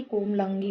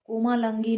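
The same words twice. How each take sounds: First: Said in the usual way. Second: कोमालंगी with a long मा; long middle vowel. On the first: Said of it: "होता है". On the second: Shown as a demonstration. Teacher showing a common error, long middle vowel. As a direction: stretch the मा of कोमालंगी. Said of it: "नहीं".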